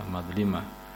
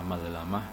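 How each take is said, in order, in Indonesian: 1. Suku kata tengah memiliki vokal 'i'. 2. Suku kata tengah memiliki vokal 'a'. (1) "yang paling masyhur atau sahih itu malah madlimah" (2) "Ini bisa dibaca madlamah"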